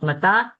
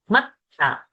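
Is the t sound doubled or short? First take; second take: short; doubled. First: The t sound is short and single. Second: The t sound is held long and doubled. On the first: The speaker calls it wrong. "Not mata" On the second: The speaker calls it right. "We have to get the double th sound"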